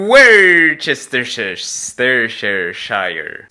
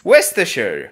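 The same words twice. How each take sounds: First: Worcestershire dragged out very slowly, syllables piling up; stumbling attempt. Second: Worcestershire short as woostersheer, repeated after the clip; Worcestershire said quick and clipped like the recording; copied pronunciation. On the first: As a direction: grind through Worcestershire syllable by syllable, lost. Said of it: "Specjalnie nie patrzyłem". (Worcestershire bardzo powoli, na ślepo sylaba po sylabie) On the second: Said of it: "Worcestershire sauce". (Worcestershire krótko, jak wusteszer) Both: Shown as a demonstration.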